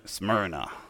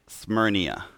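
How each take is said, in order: First: No extra sound comes before the final vowel. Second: An extra 'ee' sound comes before the final vowel. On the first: The speaker calls it right. "But nope, just Smyrna" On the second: The speaker calls it wrong. "I kept pronouncing it Smyrnia"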